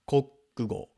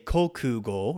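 First: The middle u vowel is dropped, said quickly. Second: The middle u vowel is clearly voiced. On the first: "when it's said quickly, they're going to take the U out of the middle there" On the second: "You could say kokugo"

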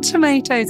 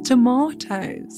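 First: The word is said in a non-English accent. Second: The word is said in an English accent. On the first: The speaker calls it wrong. "it's not tomatoes" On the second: The speaker calls it right. "it's tomatoes"

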